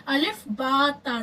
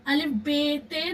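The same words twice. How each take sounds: First: अलिफ बा ता with Arabic names, बा and ता ending in open a; Arabic letter names. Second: अलिफ बे ते with Urdu names, बे and ते ending in e; Urdu letter names. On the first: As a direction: say बा ता the Arabic way, as the model. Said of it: "जैसे अरबी लहजे में पढ़ते हैं". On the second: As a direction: say बे ते the Urdu way, as the wrong example. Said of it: "नहीं पढ़ना है". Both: Shown as a demonstration.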